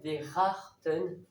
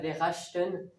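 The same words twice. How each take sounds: First: The ch is said like a throaty R sound. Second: The ch is said without an R-like sound. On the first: The speaker calls it right. "le C H se prononce en R" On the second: The speaker calls it wrong. "c'est pas verachten"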